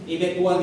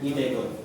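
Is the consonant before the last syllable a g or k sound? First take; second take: k; g. First: A k-like sound, then a separate w syllable. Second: A g sound linked on, with no w. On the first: The speaker calls it wrong. "Hindi siya E-bet one na" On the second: The speaker calls it right. "Tinatanggal na yung W dun sa one"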